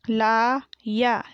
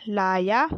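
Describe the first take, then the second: First: लाया split into long laa and yaa; very slow लाया, syllables held apart; spelled out. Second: Said in the usual way. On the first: Shown as a demonstration. Teacher sounding out लाया for pupils, syllable by syllable. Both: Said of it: "मैंने इस तरीके से पढ़ा".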